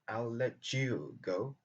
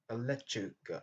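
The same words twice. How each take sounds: First: The t and y sounds stay separate. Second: The t and y blend into a ch sound. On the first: "au lieu de dire" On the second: "on peut dire"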